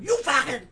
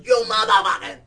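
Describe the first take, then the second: First: High, loud mock shout; acting out a street shouting match; retold angry yell. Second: Very loud, high shouted curse; imitated stranger roaring back; retold escalating yell. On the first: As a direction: escalate the curse into a yell. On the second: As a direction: top him with a bigger shout. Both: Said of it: "we keep going, Dush, dush".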